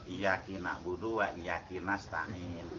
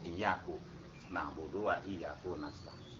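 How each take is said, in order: First: The word 'iyyaka' ends with an 'i' vowel. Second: The word 'iyyaka' ends with a 'u' vowel. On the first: The meaning of the phrase is changed. "mengkasrokan lafaz iyaka menjadi iyaki" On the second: The meaning of the phrase is not changed. "kalau seandainya itu didhamahkan"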